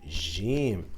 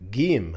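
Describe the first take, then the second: First: It is said the Standard Arabic way. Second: It is said the Egyptian Arabic way. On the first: "في الفصحى" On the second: "في الإيجيبشن Arabic بنقول"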